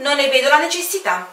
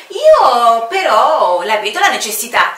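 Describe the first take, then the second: First: Quick, light refusal with a smile; breezy smiling refusal; smiling aviator. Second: Loud, insistent counter with stress on "Io"; loud stubborn commander; firm retort. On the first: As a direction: brush it off with a grin. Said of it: "disse l'aviatore sorridendo". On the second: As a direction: push back hard: "Io però la vedo". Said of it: "ribatté il comandante". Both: Acted.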